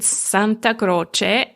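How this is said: The name is said with Italian pronunciation. "in Italian, you pronounce it"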